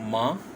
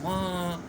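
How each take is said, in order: First: The pitch rises from low to high. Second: The pitch falls sharply from high to low. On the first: "बढ़ रही है" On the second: "आवाज़ नीचे को हो रही है"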